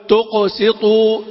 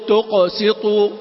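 Both takes have the same delivery.

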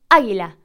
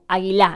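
First: The stress is on the first syllable. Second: The stress is on a later syllable. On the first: The speaker calls it right. "Nosotros decimos águila" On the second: The speaker calls it wrong. "no decimos águila"

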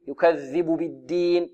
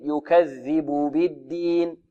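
First: The vowels are clipped and rushed. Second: The vowels are given their full value. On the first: The speaker calls it wrong. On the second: The speaker calls it right.

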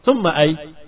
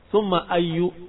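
First: The word ends on the bare consonant. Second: The word ends in a short 'u' vowel. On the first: The ending is left silent to stay safe. "kamu sukunkan selamat" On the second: The word is read as possessing a following noun. "dikatakan bahwasanya dia dibaca summa ayyu karena takdir mudhaf"

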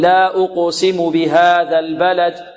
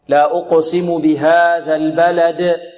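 First: The final d has a weak, faint bounce. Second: The final d has a strong, clear bounce. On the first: The speaker calls it wrong. "بعض الطلاب يأتي بالقلقلة ولكن يأتي بها ضعيفة" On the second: The speaker calls it right. "لابد أن نأتي بالقلقلة قوية"

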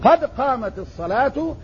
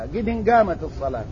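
First: The first word ends without an added n. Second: An extra n sound follows the first word. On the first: The speaker calls it right. "هكذا شرع الإسلام لنا" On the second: The speaker calls it wrong. "وسمعت من يقول قدن قامت الصلاة"

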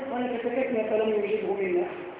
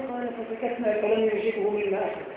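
No difference in how they are said.

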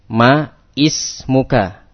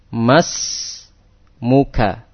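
First: The two words are separate with ismuka's first vowel heard. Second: The words are joined with ismuka's first vowel dropped. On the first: The speaker calls it wrong. "Bukan seperti ini" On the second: The speaker calls it right. "Membacanya langsung disambung"

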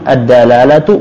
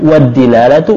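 First: The first d is followed by an a vowel. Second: The first d is followed by an i vowel. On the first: "Dalnya bisa dikasih tiga harakat" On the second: "Dalnya bisa dikasih tiga harakat"

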